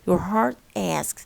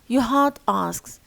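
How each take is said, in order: First: The R in heart is pronounced. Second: The R in heart is silent.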